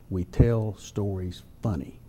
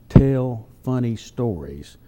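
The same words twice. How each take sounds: First: Slow, dropped punchline with "funny" landing last; punchline stress. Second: Slow, leaning on "funny" before "stories"; deliberate setup of a wordplay line; slow stressed contrast. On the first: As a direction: drop the voice and land hard on "funny". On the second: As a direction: spell out "tell funny stories" slowly, weight on "funny". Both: Shown as a demonstration. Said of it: "the best thing about Southern humor".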